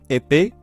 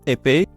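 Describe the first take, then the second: Both takes have the same delivery.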